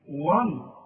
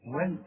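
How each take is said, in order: First: The waw and lam sound heavy and emphatic. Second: The waw and lam sound light and thin. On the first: The speaker calls it wrong. "غلط" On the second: The speaker calls it right. "اللام انت خدتها قبل كده انها مرققه دائما"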